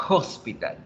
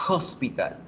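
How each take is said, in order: First: The word begins with an audible breathy h. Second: The word begins with an audible breathy h.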